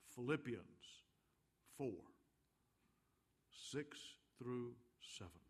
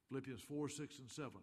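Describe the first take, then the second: First: It is said slowly. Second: It is said fast.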